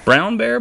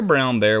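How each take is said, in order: First: Calling out. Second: Said in the usual way. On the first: A narrator's reading. Reading Brown Bear to children, calling the bear high. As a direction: call out to the bear.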